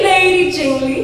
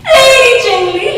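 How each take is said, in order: First: Amused English echo; laughing repeat. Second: High, loud call rising at the end; loud sing-song English call; high calling lilt. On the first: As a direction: let the second Lady Jingly fall back, chuckling. Second call in verse. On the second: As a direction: call Lady Jingly up and out. Bear calls out in verse. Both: Acted.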